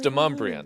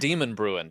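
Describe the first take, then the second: First: It sounds like 'de-mum-bree-un', with 'mum' in the middle. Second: It sounds like 'demon' followed by 'bruin'. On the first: The speaker calls it right. "It's Demumbrian" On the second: The speaker calls it wrong. "It's not Demon Bruin"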